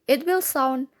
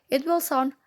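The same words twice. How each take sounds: The two takes are said the same way.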